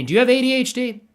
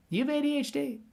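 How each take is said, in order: First: Said in the usual way. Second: High and softer, a coy teasing repeat; softer teasing ask. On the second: Real, not acted. Teasing the artist Vinny with a hushed repeat. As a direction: lean in and ask it again, softer and sly. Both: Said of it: "Vinny, quick question".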